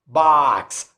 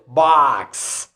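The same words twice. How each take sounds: First: The vowel is said with unrounded lips. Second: The same.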